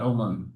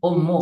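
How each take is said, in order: First: The word ends with an added n sound. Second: The word ends in a vowel, without n. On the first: The speaker calls it wrong. "bukan umun" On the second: The speaker calls it right. "Ummu, ummu bukan umun"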